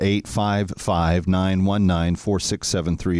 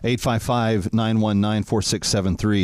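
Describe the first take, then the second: First: The number is read slowly. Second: The number is read at normal speed.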